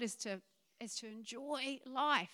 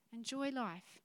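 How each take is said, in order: First: Said in the usual way. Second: Softer, letting "Enjoy life" sink in; a quiet echo of the point; softly repeated. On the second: Shown as a demonstration. Preacher softly repeating "Enjoy life" to the congregation. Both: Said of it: "repeated for emphasis".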